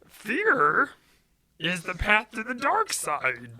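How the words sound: It is said in an imitated Yoda voice.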